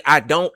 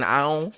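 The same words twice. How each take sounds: First: Said in the usual way. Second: "I don't" said quickly as "ion"; "I don't" with the d and t dropped; slurred "I don't". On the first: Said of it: "When I say". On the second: Shown as a demonstration. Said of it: "So if I'm saying".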